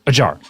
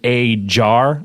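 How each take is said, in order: First: It is said quickly, as one word. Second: It is said slowly, as two words.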